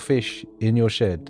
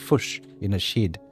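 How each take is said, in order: First: It is said in a standard accent. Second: It is said in a New Zealand accent.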